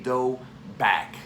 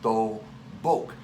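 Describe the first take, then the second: First: The second syllable has an 'ah' vowel. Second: The second syllable has an 'oh' vowel. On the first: The speaker calls it wrong. "I often hear, especially among English speakers, it referred to as a dobak or a do-bak" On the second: The speaker calls it right. "we use the word do-bok"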